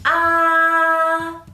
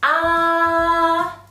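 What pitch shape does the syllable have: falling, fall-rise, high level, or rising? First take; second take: high level; high level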